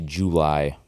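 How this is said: It is said in a Southern US accent. "You're in the South and you say July"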